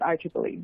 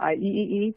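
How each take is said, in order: First: The three E's are said as 'triple E'. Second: The three E's are said one by one. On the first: The speaker calls it right. "we actually pronounce it I triple E" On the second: The speaker calls it wrong. "not I E E E"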